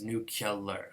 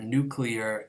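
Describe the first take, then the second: First: The sounds are switched to nu-cu-lar. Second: The sounds come in the usual nu-clear order.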